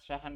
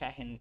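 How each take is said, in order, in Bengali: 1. h-এর পরের স্বরবর্ণটি 'a'। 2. h-এর পরের স্বরবর্ণটি 'e'। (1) "মিশরের ওরা শাহান ব্যবহার করে" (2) "আর এখানে শাহেন, হায়ের নিচে জেড দিয়ে দিছে"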